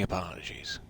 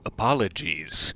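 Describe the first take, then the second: First: The word is slurred, with sounds dropped. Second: The word is said fully, every syllable clear. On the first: The speaker calls it wrong. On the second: The speaker calls it right.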